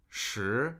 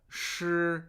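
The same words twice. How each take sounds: First: "shi" said in a falling tone, meaning ten; Mandarin shi, tone contrast. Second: "shi" said higher, in a level or rising tone, meaning wet; Mandarin shi, tone contrast. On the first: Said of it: "means ten". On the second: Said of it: "means wet". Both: Shown as a demonstration.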